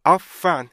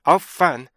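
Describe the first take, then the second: No difference in how they are said.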